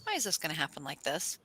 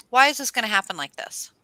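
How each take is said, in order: First: Soft, deflated asking; subdued question. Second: Louder, protesting why; exasperated question. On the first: Asking why it all goes wrong, quietly resigned. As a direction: let the question sink, quietly. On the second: Asking why it all goes wrong, loudly exasperated. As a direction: demand an answer, pushing it out. Acting out dismay at going wrong. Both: Acted.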